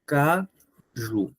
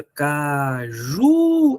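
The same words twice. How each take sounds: First: CAJU in two separate, even syllables; split syllables. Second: Caju with a long drawn-out JU; ca-JUUU, last syllable held; called out, stressing JU. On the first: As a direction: break Caju into ca, pause, ju. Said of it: "Vamos separar a palavra caju". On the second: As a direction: call out Caju slowly, stretching the final syllable. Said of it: "Pronuncia aí a palavra caju em voz alta". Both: Shown as a demonstration.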